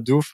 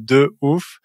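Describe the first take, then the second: First: The vowel of 'de' is dropped before 'ouf'. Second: The vowel of 'de' is kept before 'ouf'. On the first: The speaker calls it wrong. "pas d'ouf" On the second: The speaker calls it right. "mais de ouf"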